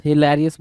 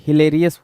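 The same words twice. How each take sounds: First: हिलेरियस with an open "lair" vowel, as spelt with A; correct pronunciation. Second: हिलेरियस with "ler" as spelt with E; misspelt pronunciation. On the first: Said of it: "हिलेरियस बोलेंगे भाई". (हिलेरियस में खुला "लै", सही उच्चारण) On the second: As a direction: close the middle vowel of हिलेरियस to "lay". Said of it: "हिलेरियस बोल रहा है". (हिलेरियस में "ले" की आवाज़, गलत उच्चारण) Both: Shown as a demonstration.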